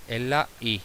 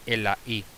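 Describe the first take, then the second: No difference in how they are said.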